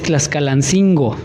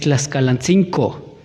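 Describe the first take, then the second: First: The last syllable has a G sound. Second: The last syllable has a K sound. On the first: The speaker calls it wrong. "no es Tlaxcalancingo" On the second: The speaker calls it right. "no con G"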